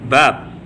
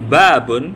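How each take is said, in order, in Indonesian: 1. Kata ini berhenti di huruf b terakhir. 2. Kata ini berakhir dengan akhiran -un secara penuh.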